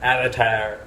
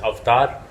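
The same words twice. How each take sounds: First: The word has a Western English-style pronunciation. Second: The word has an Indian Sanskrit-style pronunciation. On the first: The speaker calls it wrong. "funny sounding Western pronunciations ... it sounds so pretentious" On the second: The speaker calls it right. "revert to its original pronunciation"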